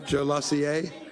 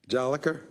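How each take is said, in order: First: The name ends with a soft 'sier' sound. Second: The name ends with a hard 'ker' sound. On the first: The speaker calls it wrong. "Not Jolessier?" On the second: The speaker calls it right.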